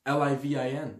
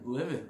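First: Spelling it letter by letter, L I V I N; the speaker spells L I V I N out letter by letter; spelled out. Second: Said in the usual way. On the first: Shown as a demonstration. While boasting about living it up, spelling each letter. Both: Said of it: "I was just L I V I N".

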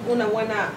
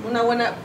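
Both takes have the same delivery.

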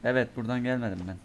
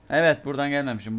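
First: Said in the usual way. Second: "Evet" punched out louder with an accent on it; loudly emphasized "Evet", then settling; emphatic confirmation. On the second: Real, not acted. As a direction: land "Evet" firmly, sure of yourself now. Re-confirming route more emphatically.

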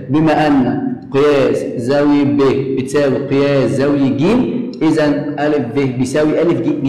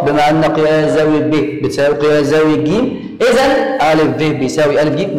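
First: Slow dictation. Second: Said in the usual way. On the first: Shown as a demonstration. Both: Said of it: "أكتبها في المقرأ".

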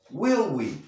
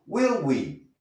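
No difference in how they are said.

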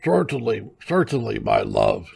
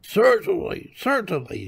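First: Put-on old husband answering through food; eating old man. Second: Put-on high old-wife voice, falling on each word; high, dismissive wifely reply; eating old wife. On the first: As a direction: agree as the old man, mouth busy. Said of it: "returned the old man". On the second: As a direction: agree high-voiced between handfuls. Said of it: "she replied, helping herself to another handful". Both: A narrator's reading.

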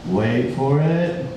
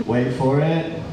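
The two takes are said the same way.

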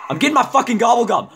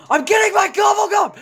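First: Said in the usual way. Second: High frustrated gamer yell; angry shout. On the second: Real, not acted. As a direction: yell it at the game.

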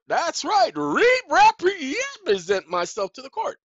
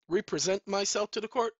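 First: "re-represent" stammered out high, loud and slow; high, loud, drawn-out "re-represent"; emphatic stumbling stress. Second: Said in the usual way. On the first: Acted. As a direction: trip loudly over "re-represent", stretching it. Mock stumbling emphatic repeat.

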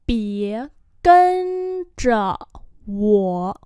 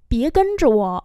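First: Syllable by syllable; long, separated tones. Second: Said in the usual way. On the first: Shown as a demonstration. Teacher repeats phrase slowly.

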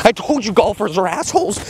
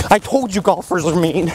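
First: Blurted insult. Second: Said in the usual way. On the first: Acted.

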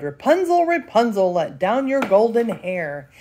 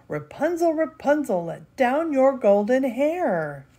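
First: Witch calling up. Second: A prince putting on his best wicked witch voice; prince faking a witch voice. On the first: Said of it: "she cried". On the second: Prince tricking Rapunzel with a high put-on witch call. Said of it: "in his best wicked witch voice cried". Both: Acted.

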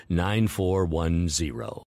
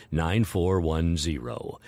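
Both takes have the same delivery.

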